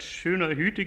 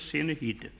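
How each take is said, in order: First: The vowels are said with rounded lips. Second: The vowels are said with spread lips. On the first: This is the standard German form. "statt schöner Hüte" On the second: This is the Berlin dialect form. "gibt es in Berlin bloß"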